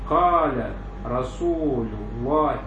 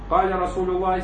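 First: It is spoken slowly and deliberately, like dictation. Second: It is spoken at a normal narrating pace. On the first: It is dictated so listeners can write it down. "А имля вот так. Как будто он диктант диктует" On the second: It is simply narrated to the listeners. "когда шейх рассказывает так"

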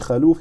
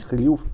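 First: An a vowel follows the first consonant. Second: No vowel follows the first consonant. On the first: "не халюф" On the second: "и не хлюф"

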